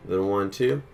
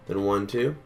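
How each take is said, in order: Both takes have the same delivery.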